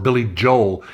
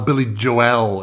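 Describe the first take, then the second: First: The name is pronounced the American way. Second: The name is pronounced the European way. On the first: This is how the singer says his own name. "as you call him, and as he calls himself" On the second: This is how people in Europe once said the name. "In Europe, we called him for a while"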